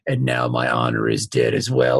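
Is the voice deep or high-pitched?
deep. It is said in a deep voice.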